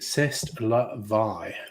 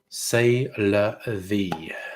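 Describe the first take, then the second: First: It is said with a French accent. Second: It is said with an English accent.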